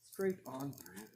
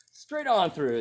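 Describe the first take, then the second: First: Much softer, a muttered repeat to himself; quiet echo. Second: Pitched up high, amused at the easy cut; delighted exclaim. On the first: Tester repeating the result to himself, softly. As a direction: let it drop away as an aside. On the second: Tester watching axe slice the pan, delighted. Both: Real, not acted.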